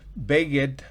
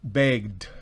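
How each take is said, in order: First: The ending is said as an extra syllable. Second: The ending is said as a plain d sound. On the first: The speaker calls it wrong. "no se pronuncia begged" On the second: The speaker calls it right. "sino begged"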